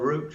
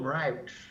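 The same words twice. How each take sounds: First: It is said with a British pronunciation. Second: It is said with an American pronunciation. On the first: "as we'd say in England" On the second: "they call them routes"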